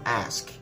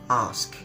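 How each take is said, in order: First: It is said in an American accent. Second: It is said in a non-American accent.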